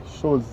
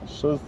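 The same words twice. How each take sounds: The two takes are said the same way.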